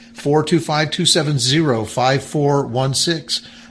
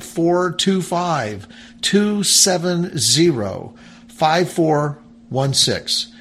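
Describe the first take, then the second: First: The number is said at normal speed. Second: The number is said more slowly.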